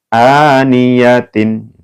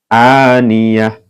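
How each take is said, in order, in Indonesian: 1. Kata ini berakhir dengan bunyi 'tin' penuh. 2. Kata ini berakhir dengan bunyi 'h' yang lembut. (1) "awal mulanya aniyatin" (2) "dibaca seperti H ya"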